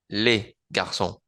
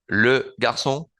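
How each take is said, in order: First: Les with open Spanish E, final S silent; plural les. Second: Le garçon with le as rounded French E; Le with rounded lips, garçon with ç as S; singular le. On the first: Teacher contrasting les with le. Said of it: "el plural se pronuncia con la E del español". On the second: Teacher contrasting le with les. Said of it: "singular se pronuncia le". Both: Shown as a demonstration.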